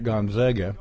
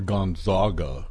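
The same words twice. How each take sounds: First: The name is said in a plain, everyday pronunciation. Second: The name is said in a refined, sophisticated pronunciation.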